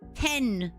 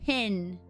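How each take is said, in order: First: The vowel is the open 'eh' sound. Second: The vowel is the closer 'ih' sound. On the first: "I pronounce the E" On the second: "Pen is pronounced pin in some dialects"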